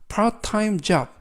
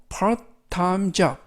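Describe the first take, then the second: Both takes have the same delivery.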